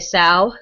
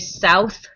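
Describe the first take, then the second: First: The word is said with a Pittsburgh vowel. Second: The word is said with a standard vowel. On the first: "we say sow" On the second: "we don't say south"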